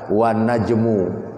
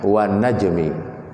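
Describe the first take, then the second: First: The last word ends in an u vowel. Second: The last word ends in an i vowel. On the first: The speaker calls it wrong. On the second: The speaker calls it right. "wajib dibaca kasrah"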